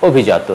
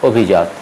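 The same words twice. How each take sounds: First: অভিজাত said slowly and carefully, the right way; অভিজাত clearly and correctly pronounced; correct pronunciation. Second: অভিজাত said the mistaken way, as it looks on the page; অভিজাত read the way learners often get it wrong; wrong pronunciation. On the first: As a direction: model অভিজাত slowly for students to copy. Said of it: "হবে অভিজাত". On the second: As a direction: read অভিজাত the naive way, as spelt. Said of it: "মনে হতে পারে এই শব্দটি উচ্চারণ হবে". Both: Shown as a demonstration.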